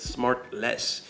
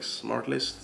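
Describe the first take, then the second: First: The second syllable sounds like 'less'. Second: The second syllable sounds like 'list'. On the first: The speaker calls it right. "No, it's Smart Less" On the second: The speaker calls it wrong. "they kind of pronounce it like it's Smart List"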